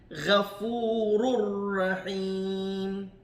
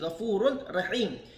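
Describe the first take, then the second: First: The final n merges into a doubled r sound. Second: The final n is pronounced separately before Rahim.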